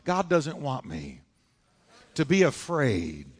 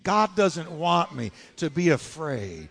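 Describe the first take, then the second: First: It is said plainly, without extra force. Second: It is said forcefully, with strong conviction.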